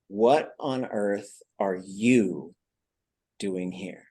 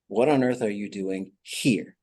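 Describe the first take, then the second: First: The word 'you' carries the main stress. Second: The word 'you' carries no main stress. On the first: "So now the stress is on you" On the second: "which is a little bit different"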